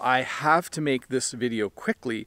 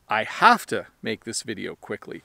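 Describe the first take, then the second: First: 'Have to' is said as two full words. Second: 'Have to' is squeezed together into 'hafta'.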